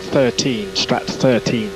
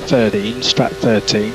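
No difference in how they are said.

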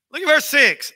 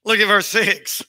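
First: Higher, pressed repeat of the verse; emphatic repeat. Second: Said in the usual way. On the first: Shown as a demonstration. Preacher repeating the verse for the congregation, higher and emphatic. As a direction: say it again, pitched up to drive it home.

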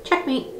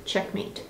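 First: Bright high triumphant quip, soft. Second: Breathy whispered win; whispered checkmate. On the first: Telling the viewer she has won, a high cheeky quip. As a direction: toss off a cheeky win. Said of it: "playful victory exclamation". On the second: Closing the lesson for the viewer, a whispered checkmate. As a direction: whisper it like a secret victory. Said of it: "repeat of the catchphrase, whispered". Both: Acted.

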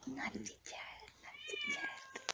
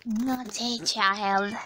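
First: Put-on high, breathy sing-song whisper of naughty child. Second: Said in the usual way. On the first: Shown as a demonstration.

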